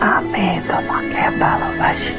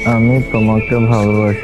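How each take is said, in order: First: It is said in a soft whisper. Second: It is said in a normal speaking voice. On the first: The speaker calls it right. "আমার মতো ফিস ফিস করে" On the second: The speaker calls it wrong. "এইভাবে না"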